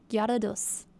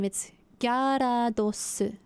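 First: Said in the usual way. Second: "Gyarados" drawn out slowly, Korean syllables "ga-ra-do-su"; Korean-style Gyarados. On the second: Shown as a demonstration. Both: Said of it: "Gyarados is the same".

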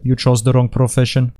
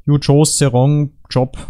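First: Light mock Russian accent; lightly put-on Russian accent. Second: Slow mock German accent; drawn-out, hammed-up German accent. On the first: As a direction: deliver it as a Russian movie villain. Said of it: "with a Russian accent". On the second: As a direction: deliver it slowly as a German villain. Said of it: "with a German accent".

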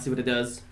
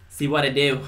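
First: Said in the usual way. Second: Jokey "See what it do" instead of "see what it does"; slangy drop. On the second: Shown as a demonstration. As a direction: throw it off as street slang, "what it do".

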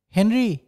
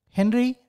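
First: Mild narrated shout, falling at the end; restrained loud cry. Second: Higher-pitched call with a rising end. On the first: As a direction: cry out the name, held back. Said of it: "అని గట్టిగా అరిచాను". (కాస్త గట్టిగా అరిచినట్టు) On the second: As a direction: call a friend's name from below. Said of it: "అని పిలిచాను". (పైకి పిలుస్తున్నట్టు, హెచ్చు స్వరంలో) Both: A narrator's reading.

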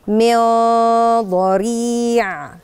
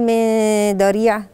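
First: Very slow من ضريع with the nun hummed thick and heavy toward the ض; heavy ikhfa ghunna. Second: من ضريع with a light nun and no heavy ghunna; wrong plain nun. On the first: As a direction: stretch the heavy nasal before ضريع. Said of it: "الحروف الفخمة". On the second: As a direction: say من ضريع quickly, nun unshaped. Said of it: "مش هقول". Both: Shown as a demonstration.

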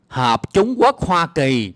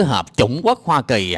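First: "Hợp chủng quốc Hoa Kỳ" slow and deliberate; corrective pronunciation. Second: Quicker, exasperated echo of "Hợp chủng quốc Hoa Kỳ"; mocked misreading. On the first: Shown as a demonstration. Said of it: "Trời ơi, làm ơn". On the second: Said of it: "Trời ơi, cứ".

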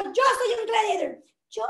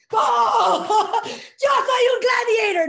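First: A hint of a shy woman's voice, mock; lightly voiced shy claim of being a gladiator; exaggerated timid gladiator. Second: High, loud, laughing battle cry; shouting the chant at the seminar; laughing gladiator shout. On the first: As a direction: Carla mimics Carmen's shy start. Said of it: "lo que estoy exagerando". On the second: Retold or imitated. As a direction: yell it out with a laugh, fully committed. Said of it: "Y gritas".

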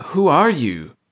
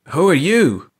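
First: Choked. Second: Loud, strained call with YOU dropping; frightened hoarse shout at the strangers. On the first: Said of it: "Clark choked again". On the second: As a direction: call it out, voice scraped raw. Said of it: "Clark called out hoarsely". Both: A narrator's reading.

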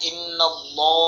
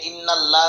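First: ইন্নাল্লাহ with a full, thick lam; ইন্নাল্লাহ said thick, as it should be; heavy Allah. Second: ইন্নাল্লাহ with a thin, light lam; ইন্নাল্লাহ said thin, as a mistake; wrong pronunciation. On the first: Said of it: "ইন্নাল্লাহ বলতে হবে, মোটা করতে হবে". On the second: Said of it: "এখানে ইন্নাল্লাহ বলা যাবে না". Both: Shown as a demonstration.

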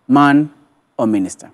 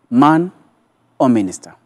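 No difference in how they are said.

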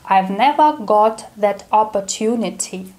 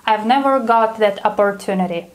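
First: The line in a careful British accent. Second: Said in the usual way. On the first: Shown as a demonstration. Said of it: "Let's say it with a British accent". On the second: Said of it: "whereas a Brit would say".

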